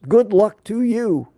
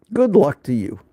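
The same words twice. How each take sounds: First: Higher, slow, sarcastic good luck; mock farewell. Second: Said in the usual way. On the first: Real, not acted. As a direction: wave them off with a dry send-off. Sarcastic farewell to ignoring peers.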